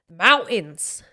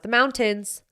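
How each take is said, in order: First: "mountains" with the T swallowed; Utah-accent mountains. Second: "mountains" with a clearly sounded T; careful mountains. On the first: Showing off her Utah accent, mountains with no T. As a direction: drop the T in "mountains" to a glottal catch. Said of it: "I'll probably have a Utah accent". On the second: Contrasting her Utah speech, mountains with a careful T. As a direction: put the T firmly into "mountains". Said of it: "really try to put that T in there". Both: Shown as a demonstration.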